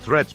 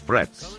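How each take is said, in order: First: The word begins with a th sound. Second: The word begins with an f sound. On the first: "substitute the letters T and H with F" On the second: "So the word threats becomes frets"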